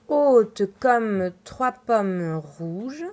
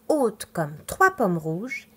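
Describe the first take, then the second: First: It is read slowly and flatly. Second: It is read normally with expressive intonation.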